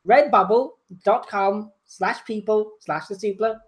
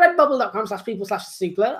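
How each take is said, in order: First: The address is said slowly. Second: The address is said quickly. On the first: The speaker calls it right. "I will say that once again" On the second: The speaker calls it wrong. "I said that really fast"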